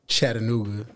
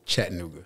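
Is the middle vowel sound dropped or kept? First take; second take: kept; dropped. First: The middle vowel sound is fully pronounced. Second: The middle vowel sound is dropped. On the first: This is how locals say it. The speaker calls it right. "the Chattanooga natives will say Chattanooga" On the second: This is how outsiders say it. The speaker calls it wrong. "people that aren't from there will say Chattanooga"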